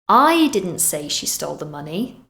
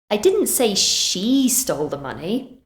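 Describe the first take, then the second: First: The stress falls on the word I. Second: The stress falls on the word she. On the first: Someone else said it. "meaning maybe someone else did" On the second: Someone else stole the money. "Maybe I said someone else did"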